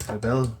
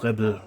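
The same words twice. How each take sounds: First: Rebel with the second syllable drawn out; alternative pronunciation. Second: Rebel said quickly, stressed on the first syllable; first pronunciation attempt. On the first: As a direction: try Rebel another way, leaning on the ending. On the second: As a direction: say Rebel as one run-on English-style word. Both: Shown as a demonstration. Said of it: "wie man das ausspricht".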